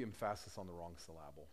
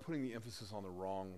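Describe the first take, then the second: First: Emphasis said as em-FASS-is, syllable as sil-LAB-le; joking wrong stress on emphasis and syllable; stress shifted in emphasis and syllable. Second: Said in the usual way. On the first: Shown as a demonstration. Preacher joking about misplaced emphasis, wrong-syllable stress on emphasis and syllable.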